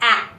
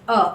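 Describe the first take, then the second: First: A long open vowel with the mouth stretched. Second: A short relaxed schwa vowel, mouth not stretched. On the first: The speaker calls it wrong. "not a. I'm not opening or stretching my mouth" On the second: The speaker calls it right. "the way I'm taking out this last A of the animal is a"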